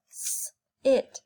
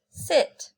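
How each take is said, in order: First: "S-it" split with a long unvoiced s; segmented word. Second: Said in the usual way. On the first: Shown as a demonstration. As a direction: hiss the s, then "it".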